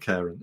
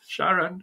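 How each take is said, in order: First: The name begins with a 'k' sound. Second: The name begins with an 'sh' sound. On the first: "I call it Karen" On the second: "don't don't call it Sharon"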